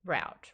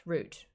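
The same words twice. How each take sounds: First: Route rhyming with "out"; American route. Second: Root with a long "oo"; original route pronunciation. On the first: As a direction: say Route as "rowt". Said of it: "say route". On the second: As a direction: say Root to rhyme with "boot". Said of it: "what I originally would say". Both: Shown as a demonstration.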